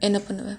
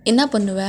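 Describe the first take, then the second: First: Said in the usual way. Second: என்ன punched loud; demanding. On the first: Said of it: "asked again louder". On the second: Acted. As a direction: snap என்ன பண்ணுவ louder. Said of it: "I'm asking". (அழுத்தி கேட்பது)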